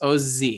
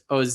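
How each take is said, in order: First: The final z sound is held longer. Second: The final z sound is short. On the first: The speaker calls it right. "You hold the zayin a little bit" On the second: The speaker calls it wrong. "instead of just oz"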